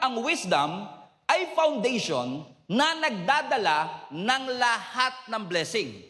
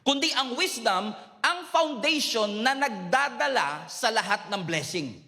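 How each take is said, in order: First: It is said more slowly. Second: It is said at normal speed.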